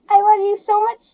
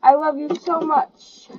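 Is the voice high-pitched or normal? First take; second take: high-pitched; normal. First: It is said in a high-pitched, annoying voice. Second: It is said in a normal voice.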